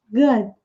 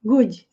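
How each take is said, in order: First: "Good" ending in a barely heard D, with no vowel after it; correct pronunciation. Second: "Good" with an extra "dji" sound after the D, like "gudji"; wrong pronunciation. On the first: Teacher models the right way with a subtle D. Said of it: "Vejam que o D é bem sutil". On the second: Teacher imitates the common student mistake, "gudji". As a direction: say "Good" the Brazilian way, adding "dji" at the end. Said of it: "não é good". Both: Shown as a demonstration.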